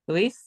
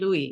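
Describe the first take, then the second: First: The name is said the non-French way. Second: The name is said the French way. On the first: The speaker calls it right. "I'm going to say it right" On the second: The speaker calls it wrong. "you're in France, you're going to say Louis"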